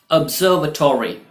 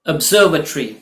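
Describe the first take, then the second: First: "ऑब्जर्वेटरी" as "ub-ZER-vuh-TOR-ee"; full "-tory" ending on "ऑब्जर्वेटरी"; second pronunciation variant. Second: "ऑब्जर्वेटरी" as "ub-ZER-vuh-tree"; short "-tree" ending on "ऑब्जर्वेटरी"; first pronunciation variant. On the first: Teacher giving the alternative, full ending. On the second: Teacher giving the first of two options, shortened ending. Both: Shown as a demonstration. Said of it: "या".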